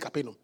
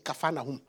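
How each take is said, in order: First: It has the common English pronunciation. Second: It sounds close to Kafa Nahum. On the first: The speaker calls it wrong. "We say Capernaum" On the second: The speaker calls it right. "But the right pronunciation is Capernaum"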